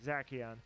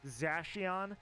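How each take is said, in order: First: The c is said as a hard k. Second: The c is said as a soft sound. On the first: This is the speaker's own preferred way to say it. "that C is hard" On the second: This is the official way to say it. "the official pronunciation is Zacian"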